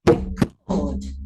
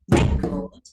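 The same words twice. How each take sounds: First: The stress is on the second syllable. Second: The stress is on the first syllable. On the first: It is a verb. "if I change the stress and put it on the second syllable, it becomes a verb" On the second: It is a noun. "a record is a noun"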